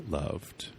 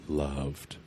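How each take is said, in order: The two takes are said the same way.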